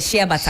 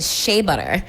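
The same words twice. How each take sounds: First: It is pronounced the Ghanaian way. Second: It is pronounced the American way. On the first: "We call it" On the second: "the Americans call it"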